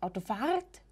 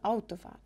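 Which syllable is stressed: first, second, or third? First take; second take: third; first. First: The stress is on the third syllable. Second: The stress is on the first syllable. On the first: The speaker calls it wrong. "und nicht Autofahrt" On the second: The speaker calls it right. "sondern Autofahrt. Ja, der Beginn wird eben betont"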